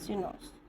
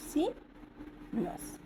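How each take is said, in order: First: Said in the usual way. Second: सिनस very slowly, long pause after सि; syllable by syllable. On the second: Shown as a demonstration. Teacher modelling a word to practise, slowly split in two. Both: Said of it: "जैसे पढ़ेंगे ऐसे ही practice करेंगे".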